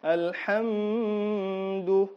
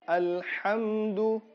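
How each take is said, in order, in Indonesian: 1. Bunyi m ditahan sebelum d. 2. Bunyi m langsung mengalir ke d. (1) "tidak boleh ditahan" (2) "Dia langsung alhamdu"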